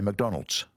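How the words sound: It ends with an s sound.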